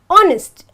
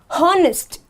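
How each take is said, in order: First: The word begins with a vowel, no h sound. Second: The word begins with an audible h sound. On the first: The speaker calls it right. "I have to say honest ... So automatically this becomes silent" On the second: The speaker calls it wrong. "and not honest"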